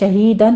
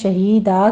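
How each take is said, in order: First: The word ends with an n sound. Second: The word ends with a long a sound. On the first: The reading continues without stopping. "शहीदन है" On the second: The reader stops on this word. "शहीदा कहकर वक़फ़ कर लेंगे"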